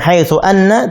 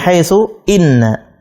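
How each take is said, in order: First: The word after haitsu begins with an 'a' sound. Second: The word after haitsu begins with an 'i' sound. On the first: The speaker calls it wrong. "bukan dibaca haitsu anna" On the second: The speaker calls it right. "tapi haitsu inna"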